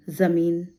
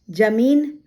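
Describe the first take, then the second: First: जमीन said with a buzzing Z instead of J; teacher demonstrating Z at the start of जमीन; nukta pronunciation. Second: Said in the usual way. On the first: Shown as a demonstration. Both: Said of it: "ये उच्चारण का अर्थ".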